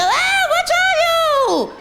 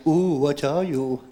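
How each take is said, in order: First: High, loud, drawn-out mock scream; scared scream. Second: Low, slow, drawn-out question; demonstrated catchphrase. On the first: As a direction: scream it out as if terrified. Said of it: "Like, scream, go". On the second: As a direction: show them the line, low and slow. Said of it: "You gotta be scared". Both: Shown as a demonstration.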